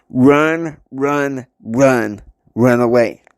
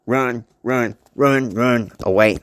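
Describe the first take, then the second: First: Urgent warning. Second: Evenly repeated runs, closer to usual pitch; repeated warning. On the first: Charlie warning someone to get away, urgent calls. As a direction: call out each run separately. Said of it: "he said it one more time". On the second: Warning said one more time, evenly repeated. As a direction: repeat the warning with less force. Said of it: "But he said like this". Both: Acted.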